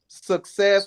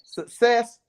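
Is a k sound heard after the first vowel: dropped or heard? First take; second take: heard; dropped. First: A k sound follows the first vowel. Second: No k sound follows the first vowel. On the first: The speaker calls it right. "the one that can't say success" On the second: The speaker calls it wrong. "without saying success"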